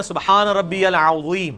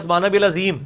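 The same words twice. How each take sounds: First: "سبحان ربی العظیم" recited slowly, each letter shaped; Quranic recitation. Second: "سبحان ربی العظیم" with "العظیم" softened towards "ladim"; common mispronunciation. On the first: Shown as a demonstration. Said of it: "تو مسلمان کیا پڑھ رہا ہوتا ہے؟". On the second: Retold or imitated. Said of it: "وہ یہ پڑھ رہا ہوتا ہے،".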